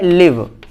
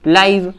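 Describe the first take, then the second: First: The vowel is a short 'i'. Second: The vowel sounds like 'eye'. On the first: To reside somewhere. "लिव मतलब रहना" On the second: Broadcast as it happens. "इसको हम लाइव"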